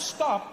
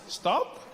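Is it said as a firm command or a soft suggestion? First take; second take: firm command; soft suggestion. First: It is said as a firm, strict command. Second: It is said as a loose, casual suggestion.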